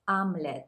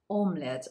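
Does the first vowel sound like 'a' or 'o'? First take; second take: a; o. First: The first vowel is reduced to an 'a' sound. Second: The first vowel is a full 'o' sound. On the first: The speaker calls it right. "So you hear it as omelette" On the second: The speaker calls it wrong. "not omelette, although it's written like omelette"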